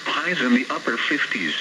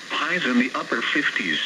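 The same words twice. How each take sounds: The two takes are said the same way.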